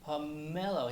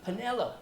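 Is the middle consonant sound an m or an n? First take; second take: m; n. First: The middle consonant is an m sound. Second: The middle consonant is an n sound. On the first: The speaker calls it right. "it's pomelo, like milk or mama" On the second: The speaker calls it wrong. "I want panello today"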